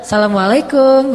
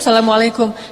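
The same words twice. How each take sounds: First: It is said in a flirtatious, different tone. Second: It is said as a plain, ordinary greeting.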